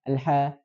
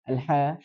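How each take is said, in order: Both takes have the same delivery.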